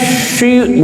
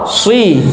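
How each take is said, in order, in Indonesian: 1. Suku kata ini diawali bunyi sh. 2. Suku kata ini diawali bunyi s yang jelas. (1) "bukan ihdinas syi" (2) "Jadi bukan kayak shin"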